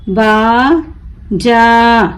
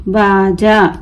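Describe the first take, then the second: First: बाजा very slow, long बा, pause, long जा; broken into syllables. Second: Said in the usual way. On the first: Shown as a demonstration. Teacher breaking the word for learners, बा... जा stretched apart. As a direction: draw out बाजा as two separate syllables. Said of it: "तोड़ तोड़ कर पढ़ूंगी". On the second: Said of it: "मिलाकर पढ़ें".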